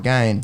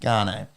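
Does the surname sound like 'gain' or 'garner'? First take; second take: gain; garner. First: The name is said in one syllable, rhyming with 'bane'. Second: The name is said with two syllables, like 'garner'. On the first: "even if you were to rhyme it with Bane" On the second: "I insist it's Garner"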